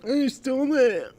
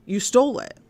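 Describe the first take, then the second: First: High, mocking sing-song; high mocking echo of the victim; mocking whiny imitation. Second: Said in the usual way. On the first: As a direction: mimic him like a taunting kid. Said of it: "And he's like". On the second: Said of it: "someone for saying".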